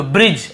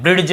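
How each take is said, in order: First: "ब्रिज" with no ड before ज; silent D. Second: "ब्रिड्ज" with an audible ड before ज; wrongly sounded D. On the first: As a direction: glide straight to ज in "ब्रिज". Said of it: "ऐसे पढ़ रहे हैं". ("ब्रिज" में ड न बोलें) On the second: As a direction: put a D into "ब्रिड्ज". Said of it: "ड नहीं आ रहा". ("ब्रिड्ज" में ड सुनाएँ) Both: Shown as a demonstration.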